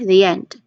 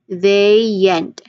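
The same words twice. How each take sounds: First: The phrase is said quickly. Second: The phrase is said slowly. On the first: "Bit faster"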